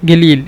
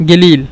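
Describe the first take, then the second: Both takes have the same delivery.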